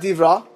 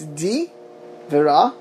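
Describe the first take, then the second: First: The phrase is run together as one short word. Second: The phrase is said as two separate words. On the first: The speaker calls it wrong. "it's not divra" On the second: The speaker calls it right. "it's di vera, it's two different letters, two different words"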